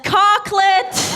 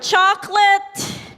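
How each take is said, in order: First: The word begins with a 'k' sound. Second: The word begins with a 'ch' sound.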